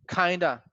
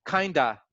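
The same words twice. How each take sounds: First: The two words blend quickly into one word. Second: The same.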